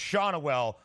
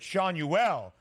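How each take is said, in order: First: The name is said plainly, without added flair. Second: The name is said with an added fancy flair. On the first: The speaker calls it right. "but just Schanuel for your guy" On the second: The speaker calls it wrong. "trying to give a little bit of nice flavor to it"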